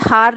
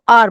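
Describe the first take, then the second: First: The word starts with an h sound. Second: The word starts with a vowel sound. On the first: The speaker calls it wrong. "हार नहीं बोलेंगे" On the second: The speaker calls it right. "इसको आर बोलेंगे"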